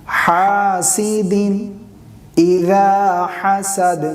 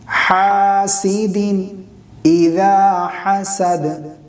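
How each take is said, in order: No difference in how they are said.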